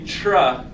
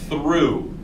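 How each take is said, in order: First: The word begins with a plain t sound. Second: The word begins with a tongue-out th sound. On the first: The speaker calls it wrong. "we don't want to say tra because it doesn't sound like that" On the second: The speaker calls it right. "We've got to stick the tongues out and really practice that sound"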